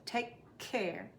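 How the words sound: A tiny break separates the two words. The speaker calls it right. "A tiny, tiny break"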